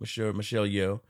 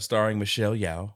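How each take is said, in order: First: "Yeoh" said like "yo", rhyming with go. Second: "Yeoh" said like "yow", rhyming with cow. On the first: Host taking co-host's correction, "Yeoh" said as "yo". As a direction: pronounce "Yeoh" with a long o. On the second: Host reading cast list, "Yeoh" said as "yow". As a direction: pronounce "Yeoh" with an ow vowel. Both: Real, not acted. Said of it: "I always pronounce it Yo".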